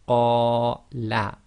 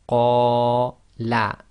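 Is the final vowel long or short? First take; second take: short; short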